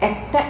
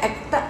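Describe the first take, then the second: Both takes have the same delivery.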